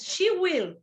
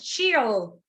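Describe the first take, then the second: First: The words are said in full as two syllables. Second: The words are contracted into one syllable. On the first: The speaker calls it right. "Yes, she will" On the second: The speaker calls it wrong. "No, please don't do that"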